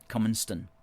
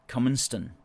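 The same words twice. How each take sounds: First: The last syllable sounds like 'ston'. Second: The same.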